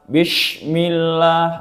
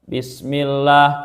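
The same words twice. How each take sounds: First: It is said with an sh sound. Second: It is said with a plain s sound. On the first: The speaker calls it wrong. "ieu kalah" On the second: The speaker calls it right. "kuduna kitu"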